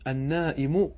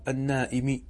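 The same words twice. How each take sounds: First: The word ends with a final 'u' vowel. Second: The word ends with a final 'i' vowel. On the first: The word starts a new clause. "النائم على الابتداء" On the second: The word stands in apposition to the preceding phrase. "والنائم على البدلية"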